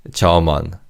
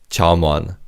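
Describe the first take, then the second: Both takes have the same delivery.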